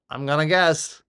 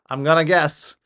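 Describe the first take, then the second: No difference in how they are said.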